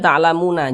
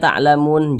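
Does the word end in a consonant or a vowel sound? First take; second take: vowel; consonant. First: The word ends with an added final a vowel. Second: The word ends on a silent n without vowel. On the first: The speaker calls it wrong. "Jangan dibaca ta'lamuna" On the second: The speaker calls it right. "huruf nun kita sukunkan"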